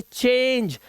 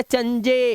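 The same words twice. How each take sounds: First: चेंज as one slow syllable, ending on j; silent final e. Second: चंजे as chan-je, final e voiced; mistaken sounded e. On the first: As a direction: say चेंज slowly, no vowel after the j. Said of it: "इसे चेंज". (चेंज, धीरे से, 'ई' चुप) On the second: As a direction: show the misreading चंजे in two syllables. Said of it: "इसे चंजे नहीं पढ़ना". (चंजे, आख़िरी 'ए' गलती से बोलते हुए) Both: Shown as a demonstration.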